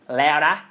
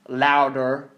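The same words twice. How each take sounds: First: It is said in an Australian accent. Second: It is said in an American accent. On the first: "or in my Australian accent" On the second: "Or if you're somewhere in America, you're like"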